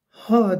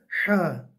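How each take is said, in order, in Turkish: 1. Ha düz, daraltılmamış bir nefestir. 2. Ha, daraltılmış bir boğazla çıkarılır. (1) "Ha değil de ha" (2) "Temiz ve net çıkacak"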